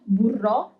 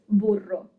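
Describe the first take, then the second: First: The stress is on the last syllable. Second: The stress is on the first syllable. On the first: The speaker calls it wrong. "It's not burro" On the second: The speaker calls it right. "Without the accent"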